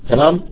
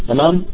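Both takes have the same delivery.

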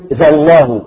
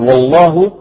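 First: The word begins with a z-like sound. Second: The word begins with a w sound. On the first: The speaker calls it wrong. "يقول ذا الله بدل والله" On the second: The speaker calls it right. "بدل والله"

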